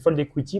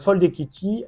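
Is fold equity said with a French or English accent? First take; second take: English; French. First: It is said with an English-sounding pronunciation. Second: It is said with a French-sounding pronunciation. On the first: The speaker calls it right. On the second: The speaker calls it wrong.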